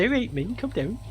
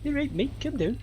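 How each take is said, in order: First: High, softer mock Scouse; Liverpudlian accent. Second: High, soft Scouse imitation; Liverpudlian accent. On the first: Stranger in the Tate bathroom to sick student, Liverpudlian accent. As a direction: imitate a Liverpool accent, higher and soft. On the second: Stranger repeating himself to sick student, Liverpudlian accent. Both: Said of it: "with a Liverpudlian accent".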